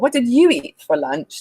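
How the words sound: The word 'you' carries strong contrastive stress.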